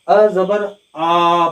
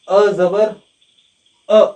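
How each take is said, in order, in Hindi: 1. अंतिम स्वर लंबा है और खींचा हुआ है। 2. अंतिम स्वर छोटा है, खींचा हुआ नहीं। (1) "अक्सर हमारे तुलबा यहाँ पर गलती करते हैं" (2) "थोड़ा भी आवाज को ज्यादा न खींचे। जैसे"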